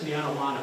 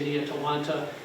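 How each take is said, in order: First: Said fast, slurred, with an extra n sound. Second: Said slowly, each syllable clearly pronounced. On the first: "When I talk and I talk fast, it's Nianawana. I stick an extra N in" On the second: "elucidate much more clearly"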